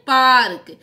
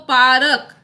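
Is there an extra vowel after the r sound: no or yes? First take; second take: no; yes. First: The r runs straight into k with no vowel. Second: A full vowel is sounded between r and k. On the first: The speaker calls it right. "पार्क होता है" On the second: The speaker calls it wrong. "पूरा र लिखते तो क्या बोलते हैं इसको, पारक। लेकिन पारक नहीं होता है"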